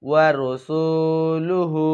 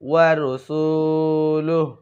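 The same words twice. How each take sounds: First: The final vowel of the word is kept. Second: The final vowel is dropped at the stop. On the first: "এখানে আছে" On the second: "ওয়াকফ করলে"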